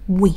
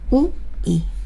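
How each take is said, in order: First: The vowels are blended quickly into one glide. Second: Two vowels are said slowly as separate sounds.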